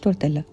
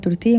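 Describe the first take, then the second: First: The double L is sounded like an l. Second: The double L is sounded like a y. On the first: The speaker calls it wrong. "مش تورتيلا" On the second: The speaker calls it right. "النطق الصح بتاعها تورتيه"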